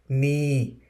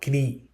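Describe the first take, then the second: First: The word begins with an N sound. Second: The word begins with a K sound. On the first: The speaker calls it right. "but we say knee" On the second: The speaker calls it wrong. "It is not knee. We don't say k sound"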